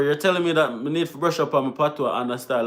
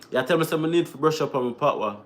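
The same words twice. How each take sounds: First: Said in the usual way. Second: Patois phrasing, "You tell me, say"; Jamaican patois. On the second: Shown as a demonstration. Vlogger to chat, saying it in Jamaican patois. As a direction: switch into Jamaican patois, unhurried. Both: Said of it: "I'm trying to say that in patois".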